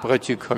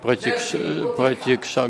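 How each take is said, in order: First: The last syllable is said as kha. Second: The last syllable is said as ksha. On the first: The speaker calls it wrong. "как протикха говорят" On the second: The speaker calls it right. "а нужно протикша говорить"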